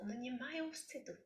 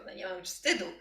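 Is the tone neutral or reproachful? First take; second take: neutral; reproachful. First: It is said in a neutral, matter-of-fact tone. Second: It is said in a reproachful, accusing tone. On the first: It is a simple statement of fact. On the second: It is an accusation of having no shame.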